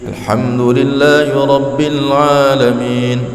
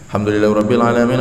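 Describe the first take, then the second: First: It is recited slowly and carefully. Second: It is recited quickly and hurriedly. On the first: Others are watching, so it is done to impress. "kita baca Qur'annya bagus banget" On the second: No one is watching anymore. "Kecepatan. Ya, terlalu cepat"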